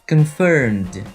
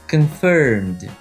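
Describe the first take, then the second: The two takes are said the same way.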